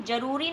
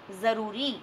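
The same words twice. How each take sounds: First: जरूरी said with a hard j, jaroori; wrong plain j. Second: ज़रूरी said with a buzzing z, zaroori; Urdu z sound. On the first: Teacher showing the wrong reading to children, hard j. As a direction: say जरूरी with the Hindi j at the start. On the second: Teacher correcting the reading for children, buzzing z. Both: Shown as a demonstration. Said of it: "इसे हम जरूरी नहीं पढ़ते".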